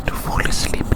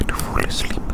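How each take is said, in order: Both takes have the same delivery.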